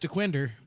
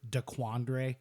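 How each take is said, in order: First: The second syllable has a short kwin vowel. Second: The second syllable has an open kwan vowel. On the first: It is how the name is supposed to be said. The speaker calls it right. "I know it's Dequinder" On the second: It is a deliberate mispronunciation. The speaker calls it wrong. "I deliberately mispronounce stuff, Example"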